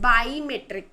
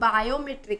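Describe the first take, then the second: First: The word begins with the sound 'bi'. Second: The word begins with the sound 'bio'. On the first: The speaker calls it right. "Bi means two" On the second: The speaker calls it wrong. "it is not biometric"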